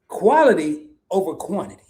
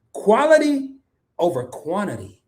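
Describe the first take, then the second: First: Quality over quantity said level and steady, no big jump on Quality; even repeat. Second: Quality hit high and hard, then over quantity drops back; stress on quality. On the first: Host repeating his motto for chat, evenly and firmly. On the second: Host drilling his motto to chat, Quality pitched high and punched. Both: Shown as a demonstration. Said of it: "Let me say that again".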